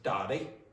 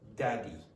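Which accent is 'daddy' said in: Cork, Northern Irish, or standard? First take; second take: Northern Irish; standard. First: It is said with a Northern Irish accent. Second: It is said with a standard accent. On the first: "If you're from Northern Ireland, they'll say daddy" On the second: "in a standardish form, you would say daddy"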